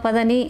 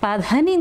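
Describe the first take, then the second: First: The d sound is said without aspiration. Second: The d sound is said with aspiration. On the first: "ಎಲ್ಲರೂ ಸರಿಗಮ ಪದನಿ ಅಂದರೆ" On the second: "ಪಧನಿ ಅಂತಲೇ ಹಾಡ್ತಾಯಿದ್ರು ... ಮಹಾಪ್ರಾಣ ಇಟ್ಟು"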